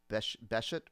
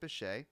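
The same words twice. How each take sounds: First: The name is sounded out as it is spelled. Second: The name is said with a French pronunciation. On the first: The speaker calls it wrong. "It looks like you might say Bechet" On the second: The speaker calls it right. "But you pronounce it Bechet"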